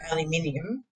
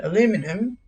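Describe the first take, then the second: First: Aluminium said as al-yuh-MIN-ee-um; Australian pronunciation. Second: Aluminum said as uh-LOO-mi-num; American pronunciation. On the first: Shown as a demonstration. Australian streamer showing the home version, aluminium as al-yuh-MIN-ee-um. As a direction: stress MIN in aluminium and keep the "ee-um" ending. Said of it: "so in Australia it's". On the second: Retold or imitated. Streamer quoting an American player, aluminum as uh-LOO-mi-num. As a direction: stress LOO in aluminum, with no "ee" at the end. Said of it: "he calls it aluminum".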